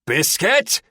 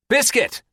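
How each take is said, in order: First: Loud roar rising at the end. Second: Sharp high yell, falling at the end. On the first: Terry to the dog that keeps barking, roaring. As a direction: roar the name, pitched high. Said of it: "Terry roars". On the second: Terry calling the barking dog, high yell. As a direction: yell the name, high and loud. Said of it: "Terry yells". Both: A narrator's reading.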